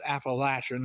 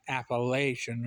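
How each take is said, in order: First: It is said the Southern way. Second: It is said the non-Southern way.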